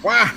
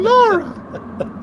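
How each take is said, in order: First: It is said in a nasal Waluigi-like voice. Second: It is said in a cheerful Mario-like voice.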